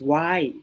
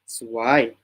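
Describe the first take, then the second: First: The word is said with a higher tone. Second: The word is said with a low tone. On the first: It means pretty. "Swai means pretty" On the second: It means bad luck. "like low, it means bad luck"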